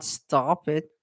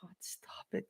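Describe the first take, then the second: First: Said in the usual way. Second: Breathy whisper, no voice. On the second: Real, not acted. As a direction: hiss it under your breath. Pleads with the chat.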